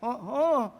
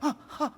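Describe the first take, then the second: First: It sounds surprised and amazed. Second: It sounds frightened and shocked.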